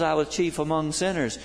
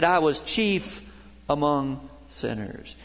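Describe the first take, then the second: First: Said in the usual way. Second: Slow, weighty confession. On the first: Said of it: "Paul says". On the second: Retold or imitated. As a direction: linger on "I", then let "among sinners" fall. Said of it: "Hal said".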